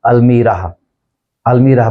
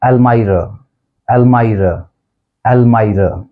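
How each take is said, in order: First: अलमीरा with "mee", al-mee-ra; long EE in अलमीरा; common mispronunciation. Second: अलमायरा with "my", el-my-ra; exact pronunciation. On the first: Teacher showing what we usually say, अलमीरा as al-mee-ra. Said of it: "इसको हम आमतौर पे बोल देते हैं". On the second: Teacher modelling exact pronunciation, अलमायरा as el-my-ra. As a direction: rhyme the middle of अलमायरा with "eye". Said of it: "exact pronunciation है". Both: Shown as a demonstration.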